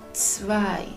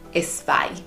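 First: The word starts directly with the ts sound. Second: An extra e vowel comes before the ts. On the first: The speaker calls it right. "Vamos a intentar hacer el esfuerzo de pronunciarlo bien" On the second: The speaker calls it wrong. "solemos ponerle la letra E delante ... está mal dicho así"

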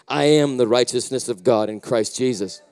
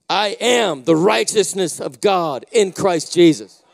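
First: It is said plainly, without much energy. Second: It is said boldly, with lots of energy.

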